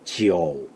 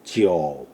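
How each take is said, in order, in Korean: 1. 긴 모음이고, 'o' 소리가 들려요. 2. 긴 모음이고, 'o' 소리가 들려요.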